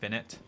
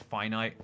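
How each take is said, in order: First: The first syllable sounds like 'fin'. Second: The first syllable sounds like 'fine'. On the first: The speaker calls it wrong. "it should be pronounced finite, like infinite" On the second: The speaker calls it right. "you know I hate the word finite"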